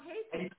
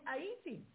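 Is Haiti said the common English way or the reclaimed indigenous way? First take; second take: common English; reclaimed indigenous. First: It uses the common English pronunciation of the name. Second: It uses the reclaimed indigenous pronunciation of the name. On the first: The name as imposed from outside. The speaker calls it wrong. "not Haiti" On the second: The original name is being reclaimed. The speaker calls it right. "we should be saying Haiti"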